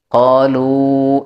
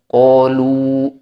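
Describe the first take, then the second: First: The lips stay relaxed, sounding moderately thick. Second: The lips push far forward, sounding very thick. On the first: The speaker calls it right. "tidak jadi qalu segitu aja" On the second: The speaker calls it wrong. "bukan harus qalu"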